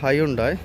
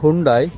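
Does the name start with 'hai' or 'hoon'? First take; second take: hai; hoon. First: The name starts with a 'hai' sound. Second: The name starts with a 'hoon' sound. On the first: This is how people in Sri Lanka say it. The speaker calls it wrong. "இலங்கையில் வந்து ஹையுண்டாய்ன்னு சொன்னான்னு தெரியும்" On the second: This is the proper pronunciation. The speaker calls it right. "இதோட உச்சரிப்பு வந்து ஹுண்டாய்"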